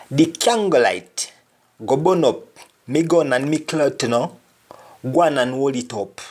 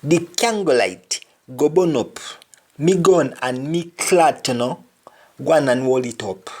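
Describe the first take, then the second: First: Spoken in broad Jamaican patois. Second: Broad Jamaican patois, a bit faster; Jamaican patois again. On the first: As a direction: read the line as a Jamaican patois speaker. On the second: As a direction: repeat the line in Jamaican patois. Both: Shown as a demonstration. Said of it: "For example".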